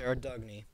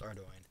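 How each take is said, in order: First: The name ends with a 'nee' sound. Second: The name ends with an 'oin' sound. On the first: The speaker calls it wrong. "I used to say Ardugny" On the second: The speaker calls it right. "It is pronounced Ardoin"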